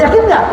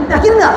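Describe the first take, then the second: First: High, eager question to the crowd; calling out yakin nggak, rising energy; rallying call. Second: Even higher, pushed harder; second, stronger call to the crowd; bigger rallying call. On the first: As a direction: fire up the congregation. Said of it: "preacher calls to crowd". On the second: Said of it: "repeats the call bigger". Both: Real, not acted.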